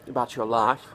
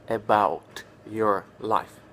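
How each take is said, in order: First: The t and y blend into a ch sound. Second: The t is said clearly before 'your'. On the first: The speaker calls it right. "He would say" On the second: The speaker calls it wrong. "not about your life"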